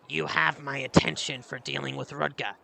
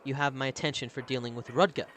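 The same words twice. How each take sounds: First: It is said in a gruff voice. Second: It is read in a plain voice.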